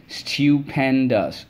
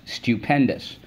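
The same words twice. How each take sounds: First: "stupendous" stretched slowly as stu-pen-dous; syllable by syllable. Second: Said in the usual way. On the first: Shown as a demonstration. Teacher reviewing words with the class, slowly syllable by syllable. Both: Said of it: "Let's go".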